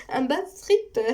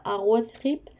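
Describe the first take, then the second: First: "Un bad trip" said high with a laugh. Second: Said in the usual way. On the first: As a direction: giggle through "un bad trip vers la liberté". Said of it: "j'avais dit un bad trip". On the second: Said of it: "au début, j'avais dit un bad trip".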